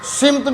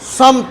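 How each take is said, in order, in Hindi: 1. पहला स्वर 'i' की आवाज़ है। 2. पहला स्वर 'a' की आवाज़ है। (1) "ये सिमत भी कहा जाता है" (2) "इसका दुरुस्त तलफ़ुज़ समत है। सीन पर ज़बर है"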